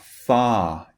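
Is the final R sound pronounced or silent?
silent. It has a long vowel with no R sound.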